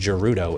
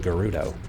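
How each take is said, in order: First: It starts with a soft J-like G sound. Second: It starts with a hard G sound. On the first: The speaker calls it wrong. "why was I saying Gerudo" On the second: The speaker calls it right. "instead of Gerudo"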